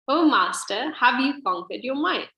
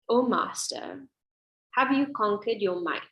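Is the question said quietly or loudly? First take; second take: loudly; quietly. First: The question is said noticeably louder. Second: The question is said at a normal, quieter volume.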